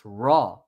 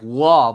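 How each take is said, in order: First: The name begins with an R sound. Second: The name begins with a W sound. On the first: The speaker calls it right. "It's raw" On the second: The speaker calls it wrong. "It just sounds like Wa, but it's not"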